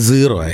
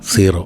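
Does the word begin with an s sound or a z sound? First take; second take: z sound; s sound. First: The word begins with a z sound. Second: The word begins with an s sound. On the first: The speaker calls it right. "It should be സീറോ actually" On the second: The speaker calls it wrong. "നമ്മൾ ഉദാഹരണത്തിന് സെഡ് ആറോ സീറോ എന്ന് പറയും"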